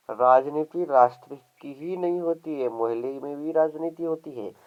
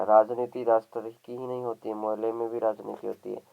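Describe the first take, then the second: First: Raised emphatic reading. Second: Said in the usual way. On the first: A narrator's reading. Narrator restates the line on neighbourhood politics, raised and emphatic. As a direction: lift the whole sentence for emphasis. Same sentence re-read with emphasis.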